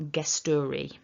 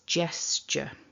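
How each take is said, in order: First: The word ends with a full ee vowel. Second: The word ends with a weak schwa vowel. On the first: The speaker calls it wrong. "we're not pronouncing an e at the end, so it's not gesturi" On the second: The speaker calls it right. "So it's gesture"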